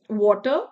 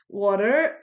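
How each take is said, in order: First: The final r sound is dropped. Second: The final r sound is pronounced. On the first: "so R is dropped" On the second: "in American accent, R's are rolled"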